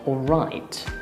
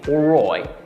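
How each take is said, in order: First: The vowel is a standard i sound. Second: The vowel is an oi sound, Janner-style.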